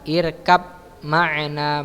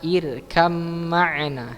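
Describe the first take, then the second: First: The first word ends in a b sound. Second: The first word ends in an m sound. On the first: The speaker calls it wrong. "Bukan irkab ma'na" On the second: The speaker calls it right. "bacanya irkam ma'na"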